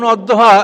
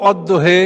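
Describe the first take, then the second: First: অদ্দোহা ending on an open "aa"; standard "a" ending. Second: অদ্দোহে ending on "he" instead of "haa"; dialect "e" ending. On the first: Lecturer giving the usual reading, অদ্দোহা with final "aa". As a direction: finish অদ্দোহা with a clear "haa". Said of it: "এটাকে কোনো জাতি পড়তো অদ্দোহে". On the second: Lecturer showing a tribe's reading, অদ্দোহে with final "e". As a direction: tilt the last vowel of অদ্দোহে to "e". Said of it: "এটাকে কোনো জাতি পড়তো". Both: Shown as a demonstration.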